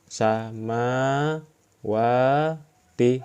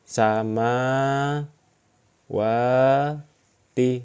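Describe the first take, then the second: Both takes have the same delivery.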